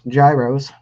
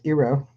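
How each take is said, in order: First: The word begins with a hard G sound. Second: The word begins with a vowel sound. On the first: The speaker calls it wrong. "as some people mispronounce" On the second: The speaker calls it right. "The actual correct pronunciation is"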